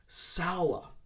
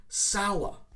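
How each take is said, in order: First: The vowel is an 'ow' sound. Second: The same.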